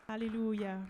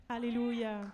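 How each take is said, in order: Both takes have the same delivery.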